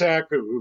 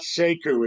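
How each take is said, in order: First: The first vowel sounds like 'ah'. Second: The first vowel sounds like 'eh'. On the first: The speaker calls it right. "it's Saku" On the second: The speaker calls it wrong. "It's not Seku"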